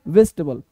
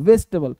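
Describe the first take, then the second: The two takes are said the same way.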